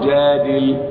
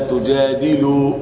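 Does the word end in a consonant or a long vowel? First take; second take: consonant; long vowel. First: The word ends on a bare consonant. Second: The word ends with a long u vowel. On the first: The speaker calls it right. "إذا وقف تجادل" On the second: The speaker calls it wrong. "لم أقل ولا تجادلوا، لا لا لا"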